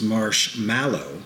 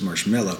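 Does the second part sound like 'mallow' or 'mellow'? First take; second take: mallow; mellow. First: The second part sounds like 'mallow'. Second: The second part sounds like 'mellow'. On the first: The speaker calls it right. "the correct pronunciation is marshmallow" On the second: The speaker calls it wrong. "everybody says marshmallow"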